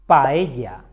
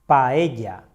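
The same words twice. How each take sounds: The two takes are said the same way.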